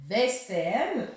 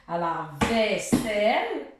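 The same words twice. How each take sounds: First: Vaisselle said slowly with a rising end; slow, drawn out. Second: Vaisselle slowed down with a long falling final syllable; slow, drawn out. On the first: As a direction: stretch the word out for a child. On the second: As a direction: lay the word out before splitting it. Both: Shown as a demonstration.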